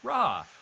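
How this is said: It sounds like an excited, loud exclamation. The speaker is eager to go on a mission. "excited about going on a mission by exclaiming Ra"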